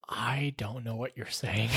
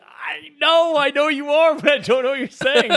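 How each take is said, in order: First: Very soft, low and slow, sheepish; helpless confession. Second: High, strained mock desperation; flustered protest. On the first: Retold or imitated. Store worker confesses to a customer, helplessly quiet. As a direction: admit it slowly under your breath. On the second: Store worker answers the offended customer, flustered and pleading.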